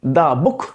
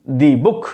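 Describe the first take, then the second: First: Said in the usual way. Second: The said as "dee", book louder and stressed. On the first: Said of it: "उसके बाद". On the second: Shown as a demonstration. Teacher showing students emphasis on book. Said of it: "बुक पे लगा रहे हैं".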